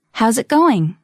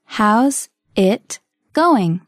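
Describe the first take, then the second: First: Said in the usual way. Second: Very slow, word by word; slow model. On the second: Shown as a demonstration. Teacher modelling a phrase for learners, very slowly. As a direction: separate every word with a gap.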